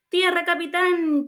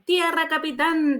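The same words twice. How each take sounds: First: High, slow shrieked cry of land. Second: High, slow call of land; shouted call. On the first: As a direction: shriek it to the captain, drawn out. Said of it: "chilló Gómez otra vez". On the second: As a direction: call it across the deck, drawn out. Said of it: "dijo Gómez". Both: Acted.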